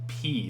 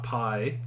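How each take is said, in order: First: The vowel sounds like 'ee'. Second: The vowel sounds like 'eye'. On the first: The speaker calls it right. "like eating a pea" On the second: The speaker calls it wrong. "So it's not pi"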